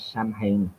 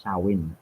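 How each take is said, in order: First: Samhain read as "sam-hayn"; spelling pronunciation. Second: Samhain said as "sah-win"; Gaelic pronunciation. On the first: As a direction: sound out Samhain as written, with m and h. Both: Shown as a demonstration. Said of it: "How you pronounce".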